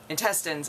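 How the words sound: It is said the city way.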